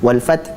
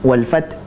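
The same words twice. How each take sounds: No difference in how they are said.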